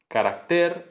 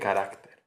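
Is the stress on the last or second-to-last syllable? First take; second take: last; second-to-last. First: The stress is on the last syllable. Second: The stress is on the second-to-last syllable. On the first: The speaker calls it wrong. "la tendencia aguda" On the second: The speaker calls it right. "en vez de"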